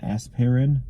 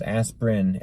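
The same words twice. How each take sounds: First: "aspirin" as as-pir-in, questioning; three-syllable pronunciation. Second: "aspirin" said as asp-rin; two-syllable pronunciation. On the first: Host doubting his spelling, "aspirin" said as-pir-in. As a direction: sound the extra I in "aspirin". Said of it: "isn't there another I in it". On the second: Host recalling his spelling, "aspirin" said asp-rin. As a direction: drop the middle vowel of "aspirin". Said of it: "A S P R I N". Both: Shown as a demonstration.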